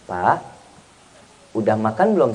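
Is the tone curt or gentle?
gentle. The question sounds gentle and caring. The husband answers warmly and fully. The speaker calls it right. "Coba ditanyanya"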